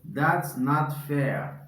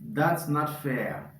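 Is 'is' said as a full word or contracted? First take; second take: contracted; contracted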